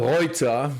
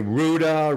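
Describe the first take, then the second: First: The name is pronounced the German way. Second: The name is pronounced the American way.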